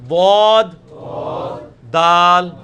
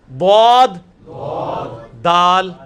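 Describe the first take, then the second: Both takes have the same delivery.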